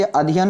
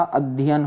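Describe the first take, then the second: First: अध्ययन said loosely "a-dhiyan", single d; wrong pronunciation. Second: अध्ययन said "ad-dhyan", doubled d; correct pronunciation. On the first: Teacher shows the error, अध्ययन as "a-dhiyan". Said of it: "अध्ययन नहीं होता". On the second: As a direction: hold the dh in अध्ययन. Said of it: "क्या होता?". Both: Shown as a demonstration.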